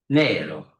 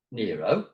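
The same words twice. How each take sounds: First: "Nero" said NEH-ro with an open e and tapped r, falling; Italian Nero. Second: "Nero" said NEE-roh, like De Niro; English Nero. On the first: Lecturer showing students how to order, "Nero" as NEH-ro. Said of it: "if you want to order coffee". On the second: Lecturer showing students the wrong reading, "Nero" as NEE-roh. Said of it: "as Robert De Niro". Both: Shown as a demonstration.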